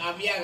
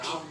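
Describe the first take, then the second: First: The middle sound is v followed by y. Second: The middle sound is a doubled v. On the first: The speaker calls it wrong. "అవ్య కాదు" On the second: The speaker calls it right.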